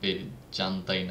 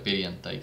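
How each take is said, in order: First: The j is sounded like English j. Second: The j is sounded like a y. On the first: The speaker calls it wrong. "না কেন" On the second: The speaker calls it right. "এটার জের উচ্চারণটা ইয়ের মতো"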